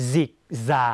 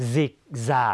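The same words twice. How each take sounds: The two takes are said the same way.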